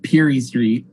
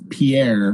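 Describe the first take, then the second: First: The name sounds like 'PEER-ee', stress at start. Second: The name sounds like 'pee-AIR', stress at end. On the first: "but people also call it Peary Street" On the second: "it's called it's Pierre"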